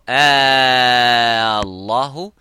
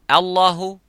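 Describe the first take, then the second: First: The opening vowel is drawn out long. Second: The opening vowel is short. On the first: It asks a question about God. "that means did Allah or have Allah told you that?" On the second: It is a plain statement naming God. "Allahu, that Allah"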